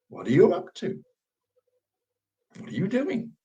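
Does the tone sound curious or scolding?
curious. It sounds curious and slightly sarcastic.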